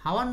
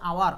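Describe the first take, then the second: First: The word begins with an audible h sound. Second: The word begins directly with a vowel sound. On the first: The speaker calls it wrong. "হাওয়ার না কিন্তু" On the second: The speaker calls it right. "এটা হচ্ছে আওয়ার"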